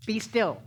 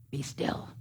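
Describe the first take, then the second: First: Loud, high be still; emphatic command. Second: Hushed, breathy be still; whispered be still. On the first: Preacher ordering racing thoughts, emphatic and loud. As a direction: snap the command out firmly. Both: Shown as a demonstration. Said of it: "Sometimes you have to get really emphatic".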